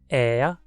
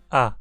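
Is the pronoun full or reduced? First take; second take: full; reduced. First: The pronoun is said in its full form. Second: The pronoun is reduced to a weak vowel.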